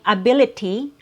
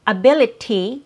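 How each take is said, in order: First: The middle consonant is a clear T sound. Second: The middle consonant is a clear T sound.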